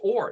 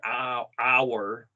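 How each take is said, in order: First: The vowel is a rounded 'oh' sound. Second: The vowel starts with an open 'ah' sound. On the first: The speaker calls it right. "no, it's or. That must be an O" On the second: The speaker calls it wrong. "if you spell it A W R"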